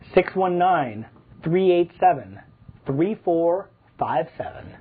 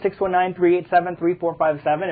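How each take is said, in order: First: The number is said more slowly. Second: The number is said at normal pace.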